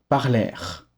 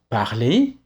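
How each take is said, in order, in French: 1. Le mot finit par un son R audible. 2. Le mot finit par une voyelle, sans R. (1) "et non parlèrent" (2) "le R et le E forment ensemble un son E. Donc on dit parler"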